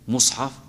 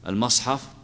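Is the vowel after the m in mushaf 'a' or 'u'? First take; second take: u; a. First: The m is followed by a u vowel. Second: The m is followed by an a vowel. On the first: "هل يجوز فيها الضم" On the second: "وهل يجوز الفتح"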